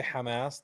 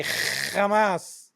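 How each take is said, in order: First: Said in the usual way. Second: Hamas with a long, harsh throaty "kh" at the start; mock "Khhhamas", higher and drawn out; mimicked Hebrew pronunciation. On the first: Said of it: "they say Hamas". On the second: Shown as a demonstration. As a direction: drag out a rasping "kh" to open Hamas. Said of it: "they can't say Hamas".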